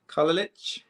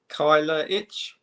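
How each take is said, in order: First: Kyler Itch run together as KAH-luh-litch; "Kyler Itch" retried quicker, first vowel a plain AH; second pronunciation attempt. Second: Kyler Itch sounded out slowly as KY-luh ITCH; first careful try at "Kyler Itch", slow, with a questioning rise; tentative pronunciation. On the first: Host retrying a boxer's difficult surname, tentative pronunciation. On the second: Host attempting a boxer's difficult surname, tentative pronunciation. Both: Real, not acted. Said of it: "hope I pronounce this right".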